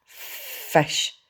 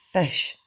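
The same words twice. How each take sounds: First: Whispery, drawn-out dragon hiss. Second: Short one-word demand, higher-pitched; dragon demand. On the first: Toothless demands food from Hiccup, hissing. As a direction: hiss the word slowly without voice. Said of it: "hissed Toothless". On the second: Toothless repeats his demand to Hiccup, insistent. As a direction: demand it briefly in a creature voice. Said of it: "said Toothless again". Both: A narrator's reading.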